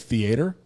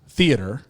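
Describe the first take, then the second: First: The stress is on the second syllable. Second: The stress is on the first syllable. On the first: "accentuate the A" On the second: "Instead of movie theater"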